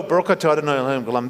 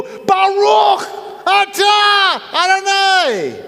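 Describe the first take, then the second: First: Low, rapid mumbled blessing; ordinary quick prayer. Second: High, slow demonstrative shout; yelled prayer. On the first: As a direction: rattle it off low and fast. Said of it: "they wouldn't just go". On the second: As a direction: yell each word out, long and high. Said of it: "at the top of their lungs". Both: Shown as a demonstration.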